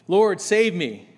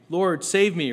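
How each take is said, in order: First: It is cried out in a desperate way. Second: It is said in a calm, measured way.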